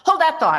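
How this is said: It is said in a curt, unkind tone. The person is brushed off dismissively. The speaker calls it wrong. "but do it in a way that's not like"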